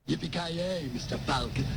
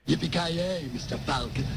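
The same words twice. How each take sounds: First: It is said fairly quietly. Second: It is said loudly.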